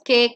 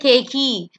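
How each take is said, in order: First: The word ends cleanly on the K sound. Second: An extra vowel sound follows the final K. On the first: The speaker calls it right. "the E becomes silent. So it's" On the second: The speaker calls it wrong. "you don't say cakey"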